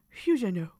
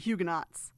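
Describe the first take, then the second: First: The word is said with a French pronunciation. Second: The word is said with an American pronunciation. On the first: "If you are French, you call it Huguenot" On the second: "since we're from America, we say Huguenots"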